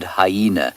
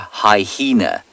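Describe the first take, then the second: First: It has no extra h sound inside. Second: It has an extra h sound inside. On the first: The speaker calls it right. "There is only one H in the word hyena" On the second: The speaker calls it wrong. "it is not a hyena"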